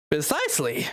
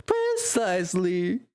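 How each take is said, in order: First: Said in the usual way. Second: PRECISELY stretched slowly with a rising end; slow, savoured "Precisely", ending upward; drawn-out delivery. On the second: Acted. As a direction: draw out PRECISELY, lifting the end. Redoes the word drawn out.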